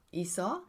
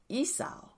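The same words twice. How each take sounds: First: Esau said EE-saw, as a question; unsure pronunciation. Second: Esau said EE-sow, ending like "cow"; trying a pronunciation. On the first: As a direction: say Esau with an "aw" ending, rising. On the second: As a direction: say Esau as EE-sow, pitched high. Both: Shown as a demonstration. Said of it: "How do we say that?".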